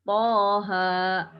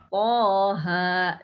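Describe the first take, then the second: Both takes have the same delivery.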